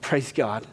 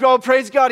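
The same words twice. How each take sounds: First: Soft, lower, moved Praise God; lower, softer Praise God; hushed praise. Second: High, bright burst of joy; higher, louder Oh, praise God; excited. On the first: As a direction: breathe it out quietly. Quiet moved response. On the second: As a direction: let the praise leap up, louder. Pastor's joyful reaction retold. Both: Retold or imitated.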